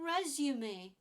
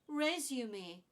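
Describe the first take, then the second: First: The word is said with three syllables. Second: The word is said with three syllables.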